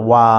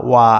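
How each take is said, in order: The two takes are said the same way.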